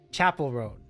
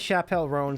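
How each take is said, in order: First: The name begins with a hard ch sound. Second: The name begins with a soft sh sound. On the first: The speaker calls it right. "Hard C H" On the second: The speaker calls it wrong. "I think I was say thinking chaperone"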